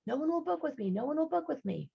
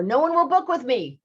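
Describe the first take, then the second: First: High, softer echo; mock echo. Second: High, loud call. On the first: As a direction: fade it like an echo. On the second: Retold or imitated. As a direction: shout it into the canyon.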